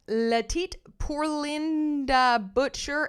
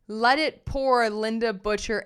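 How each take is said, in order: First: The stress falls on unexpected syllables. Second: The stress falls on the expected syllables. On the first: The speaker calls it wrong. "I put all the wrong emphasis on all the wrong syllables" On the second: The speaker calls it right. "It's let it pour"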